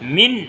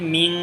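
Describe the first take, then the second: First: The final n is pronounced clearly without nasalization. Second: The final n is hidden with nasal resonance. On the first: "অতএব এখানে কোনো গুন্না হবে না।" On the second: "গোপন করে পড়তে হবে। ... মিং নাকের বাসি হইতে গুন্না উচ্চারিত হয়।"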